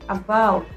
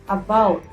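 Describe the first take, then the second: No difference in how they are said.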